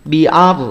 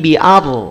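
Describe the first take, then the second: The two takes are said the same way.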